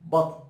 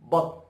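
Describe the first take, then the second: No difference in how they are said.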